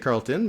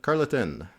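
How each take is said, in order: First: The middle vowel is left silent. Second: The middle vowel is pronounced aloud. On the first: This is the English way of saying the name. "En anglais, c'est Carleton" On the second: This is the local Gaspésie way of saying the name. "en Gaspésie, c'est Carl- Carleton. On dit le E"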